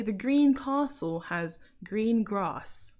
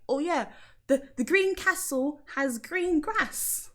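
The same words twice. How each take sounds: First: Slow, long ah in castle and grass; "castle" as cah-sul, "grass" as grahss; southern castle, grass. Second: High, slow, short a in castle and grass; "castle" and "grass" with the a of cat; northern castle, grass. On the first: Londoner correcting to own way, long ah in castle and grass. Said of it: "I'll say the green castle has green grass". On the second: Speaker echoing mum from up north, short a in castle and grass. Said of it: "things that she says, like when she says grass or castle". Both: Shown as a demonstration.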